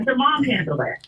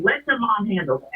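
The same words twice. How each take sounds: First: Mom hit and held, falling to the end; "mom" given the main weight, then a fall; stress on mom. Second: Your leaned on, the rest easy; "your" pushed a little harder than the other words; firm advice with the weight on "your"; stress on your. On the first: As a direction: repeat the advice leaning on "mom". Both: Shown as a demonstration.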